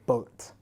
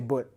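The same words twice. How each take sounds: First: It is said with a British accent. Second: It is said with a Malaysian accent.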